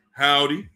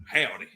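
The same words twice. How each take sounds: First: Said in the usual way. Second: Lightly imitated Texan howdy, falling at the end; mock Texas greeting; Texas accent. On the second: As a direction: say howdy with a slight Texas twang. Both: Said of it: "That's how they say it in Texas".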